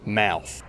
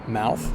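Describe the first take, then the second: First: Said with a strong Australian accent. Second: Said with a general non-Australian accent. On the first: "in some very strong Australian accents" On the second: "In many accents outside Australia"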